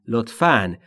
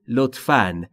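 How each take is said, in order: The two takes are said the same way.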